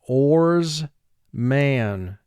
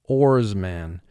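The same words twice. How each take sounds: First: Each sound of the word is drawn out clearly. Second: The word is said in a normal way.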